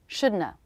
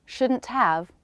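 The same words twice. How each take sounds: First: Shouldna as SHOOD-nuh, no T or have; relaxed reduced form. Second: Said in the usual way. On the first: Shown as a demonstration. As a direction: collapse to shouldna. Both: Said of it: "example sentences".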